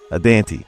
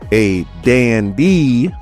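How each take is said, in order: First: The name is said with a T sound. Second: The name is said without a T sound. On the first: The speaker calls it wrong. "not a Dante" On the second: The speaker calls it right. "because there's no T"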